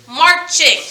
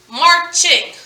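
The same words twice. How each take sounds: The two takes are said the same way.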